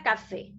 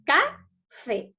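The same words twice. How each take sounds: First: Said in the usual way. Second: "Café" split into ca and fé; syllable by syllable. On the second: Shown as a demonstration. Teacher counts syllables for pupils, "Café" syllable by syllable. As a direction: say "Café" as two separate syllables with a gap between. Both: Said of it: "lo divido en sílabas".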